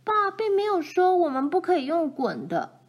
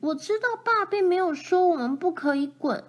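First: 爸 stressed high at the start; girl argues with her sister, 爸 stressed high. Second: 爸 stressed high, falling at the end; older sister argues back from the haystack, 爸 stressed; arguing back. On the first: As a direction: lean on 爸 to win the argument. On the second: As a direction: push back, leaning on 爸. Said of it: "跟他争论". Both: A narrator's reading.

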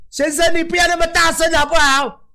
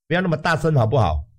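First: Much higher, scolding staff voice; high nagging voice telling the patient to keep it down; annoyed hospital staff. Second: Said in the usual way. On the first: Retold or imitated. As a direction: play the nurse shushing a noisy patient. Staff member telling him to quiet down.

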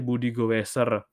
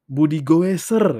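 First: Said in the usual way. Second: Louder, higher, slow proclamation of Budi Goeser; proud nickname. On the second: Shown as a demonstration. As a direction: announce Budi Goeser like a title. Naming a contact, proclaimed.

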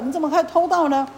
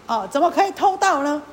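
First: Scolding with the weight on 可以. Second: Loud rebuke leaning on 盗; scolding with the weight on 盗. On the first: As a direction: rebuke leaning on 以, falling at the end. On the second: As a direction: hit 盗 hard, like an accusation. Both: Acted. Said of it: "这个莲花神就骂他".

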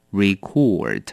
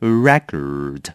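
First: "record" stressed on cord, re-KORD; 动词record重音在后; verb record. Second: "record" stressed first, REK-ord, pitched lower; 名词record重音在前; noun record. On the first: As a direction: stress the second part of "record". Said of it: "动词". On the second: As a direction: hit the first syllable of "record". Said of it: "它也可以当名词念成record". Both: Shown as a demonstration.

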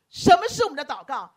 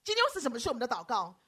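First: 我们 pushed louder, the question repeated with force; stress on 我们. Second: Said in the usual way. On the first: Shown as a demonstration. Pastor repeats his question to the congregation, hitting 我们. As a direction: hit 我们 hard on the repeat.

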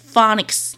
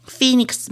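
First: Phoenix said as Phonics, FAH-niks; the teacher's wrong Phonics for Phoenix; teacher's mispronunciation. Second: Phoenix said FEE-niks, the dictionary way; correct Phoenix. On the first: Retold or imitated. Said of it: "我的英文老师都念". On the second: Shown as a demonstration. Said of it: "我不是念".

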